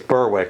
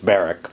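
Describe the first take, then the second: First: The w is pronounced, as spelled. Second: The w is dropped from the name. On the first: The speaker calls it wrong. "as I'm so used to doing, you know, it's what it looks like" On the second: The speaker calls it right. "dropping the consonants"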